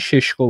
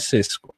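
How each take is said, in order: First: The name is said the local-language way. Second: The name is said the English way. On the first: This is how his home country may say it. "شاید به زبان محلی کشور خودش این ششگو باشه" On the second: This is how English sources say it. "انگلیسی ها بهش میگن سسکو"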